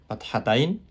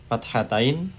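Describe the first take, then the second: Both takes have the same delivery.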